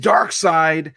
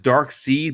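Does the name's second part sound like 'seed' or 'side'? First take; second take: side; seed. First: The second syllable rhymes with 'side'. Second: The second syllable rhymes with 'seed'. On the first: The speaker calls it right. "but it is Dark Side" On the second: The speaker calls it wrong. "I don't know why I pronounce it as Dark Seed"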